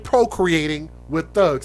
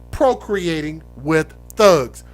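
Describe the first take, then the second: First: The phrase is said at a normal, quicker pace. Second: The phrase is said slowly and deliberately.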